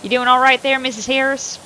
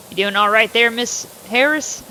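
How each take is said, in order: First: Louder redo in the sheriff's voice. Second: Said in the usual way. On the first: Acted. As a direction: give the sheriff his voice back. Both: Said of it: "I gotta do this voice again".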